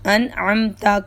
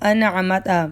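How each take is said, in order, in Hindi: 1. m के बाद कोई स्वर नहीं है। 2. m के बाद स्वर है। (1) "मीम साकिन है" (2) "किसी ने ऐसे पढ़ दिया"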